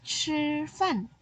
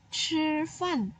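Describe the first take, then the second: First: Chi fan again, high, breathy chi; repeated example. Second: Chi fan said high and clear, aspirated chi; example phrase. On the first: Teacher repeats the example for pupils to copy. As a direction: model Chi fan once more. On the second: Teacher gives pupils an everyday Mandarin example. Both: Shown as a demonstration. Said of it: "Seperti kamu bilang".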